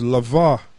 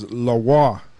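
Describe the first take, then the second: First: The middle consonant is a V sound. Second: The middle consonant is a W sound. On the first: The speaker calls it wrong. "Actually, I got to correct myself" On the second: The speaker calls it right. "It's lawa because it's la"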